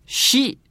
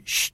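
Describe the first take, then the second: First: シ with a full i vowel, "shee"; 語尾の「シ」. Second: シュ as a bare "sh", vowel dropped; 語尾の「シュ」. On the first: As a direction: sound シ clearly as a whole syllable. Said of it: "とならずに". (「シ」と母音をはっきり) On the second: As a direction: hush シュ down to just "sh". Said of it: "シュってなって". (「シュ」と母音なしで) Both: Shown as a demonstration.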